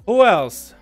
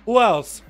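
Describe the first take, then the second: No difference in how they are said.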